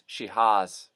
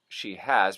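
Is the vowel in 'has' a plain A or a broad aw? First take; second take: broad aw; plain A. First: The vowel in has broadens into an aw. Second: The vowel in has is a plain A.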